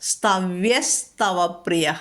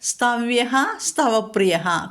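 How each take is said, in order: First: The first word ends in an s sound. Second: The first word ends in a breathy h sound.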